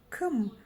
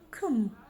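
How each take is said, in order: Both takes have the same delivery.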